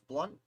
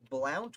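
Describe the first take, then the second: First: The vowel sounds like the one in 'hunt'. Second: The vowel sounds like the one in 'count'. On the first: The speaker calls it right. "which I understand is pronounced blunt" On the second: The speaker calls it wrong. "I've been corrected"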